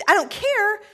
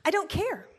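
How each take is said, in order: First: Higher, louder mom snapping back; mock-stern mom, louder; louder mom authority. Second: A firm mom laying down the law; imitating a stern mom, pitched higher; mom authoritative voice. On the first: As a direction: repeat it harder, losing patience. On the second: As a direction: put your foot down as mom. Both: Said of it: "in my particular mom authoritative voice".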